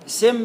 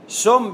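First: The first vowel is i, as in sim. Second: The first vowel is u, as in sum. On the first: "سم بكسرة" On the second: "سم بضمة"

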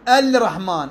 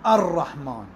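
First: The L sound is pronounced before the R. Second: The L merges into a doubled R. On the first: The speaker calls it wrong. "ما أقول الرحمن" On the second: The speaker calls it right. "أقول الرحمن، هذا واجب الإدغام"

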